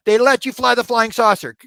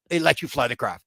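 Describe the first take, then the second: First: Much higher and louder, aghast; almost shout it in disbelief; incredulous outburst. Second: Said in the usual way. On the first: Retold or imitated. Escalated repeat of disbelief.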